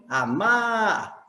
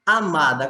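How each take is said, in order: First: "Amar" with the second syllable stretched long; stress on last syllable. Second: Said in the usual way. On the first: Shown as a demonstration. Teacher shows the strongest syllable, "Amar" drawn out on its end. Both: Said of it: "qual é a sílaba mais forte?".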